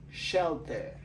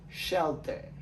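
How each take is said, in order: First: "Shelter" with sh, shel-ter; English shelter. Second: "Shelter" repeated, shel-ter; English shelter. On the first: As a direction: model "Shelter" for review. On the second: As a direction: say "Shelter" again for review. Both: Shown as a demonstration. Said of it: "Comment nous prononcer".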